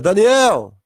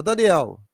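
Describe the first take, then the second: First: Loud call on the name; calling shout. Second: Said in the usual way. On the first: Acted. Jesus spotting Daniel in paradise, loud calling shout. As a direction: shout the name to get his attention. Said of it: "Ele olha e grita". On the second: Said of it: "olha e fala".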